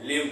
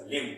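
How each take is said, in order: First: "लिम" with a B sounded after the M; mispronounced limb. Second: "लिम" ending on M, with no B; silent B. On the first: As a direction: say "लिम" as misread, like "limb" with its B voiced. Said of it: "गलत तरीके से पढ़ूं". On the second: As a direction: say "लिम" like "lim", lips closed on the M. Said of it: "बिल्कुल सही pronunciation". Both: Shown as a demonstration.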